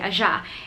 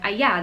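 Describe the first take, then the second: First: The middle consonant sounds like j. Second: The middle consonant sounds like y. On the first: "they say allá" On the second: "instead of allá"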